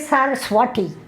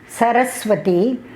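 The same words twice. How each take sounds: First: One syllable is clearly stressed over others. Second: All syllables get roughly equal stress. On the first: "they have to put stress on some part of the word" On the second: "they will not say Saraswati"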